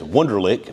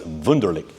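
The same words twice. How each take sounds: First: The name is said with an American pronunciation. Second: The name is said with a German pronunciation. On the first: "in America it's Wunderlich" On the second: "but in uh, Germany it's Wunderlich"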